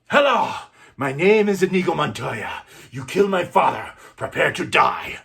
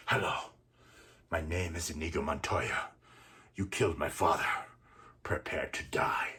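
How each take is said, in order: First: Much higher and louder, a ringing challenge; loud defiant vow. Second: Quiet vow. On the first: Inigo, regaining strength, loudly challenges his father's killer. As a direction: rise up and hurl it at him. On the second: Wounded Inigo repeats his vow softly to the killer. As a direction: barely hold yourself up and breathe the threat. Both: Acted.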